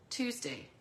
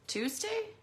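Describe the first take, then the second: First: TUESDAY with a settled falling tune; confirming fall. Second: TUESDAY with a high questioning rise. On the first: Confirming the release day to viewers, falling tune on TUESDAY. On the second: Checking the suite's release day, questioning rise on TUESDAY. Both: Real, not acted.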